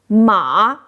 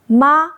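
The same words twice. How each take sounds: First: The pitch dips low then rises. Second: The pitch stays high and level. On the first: It means horse. "Third tone ma means horse" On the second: It means mom. "First tone ma means mom"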